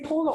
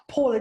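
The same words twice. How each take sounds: First: First vowel of "Paula" like "ow" in cow; Paula with an "ow" sound. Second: First vowel of "Paula" like "aw" in law; Paula with an "aw" sound. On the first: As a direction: say "Paula" as POW-la. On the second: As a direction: say "Paula" as PAW-la. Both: Shown as a demonstration. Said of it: "did you say Paula or Paula?".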